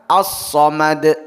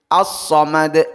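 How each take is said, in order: No difference in how they are said.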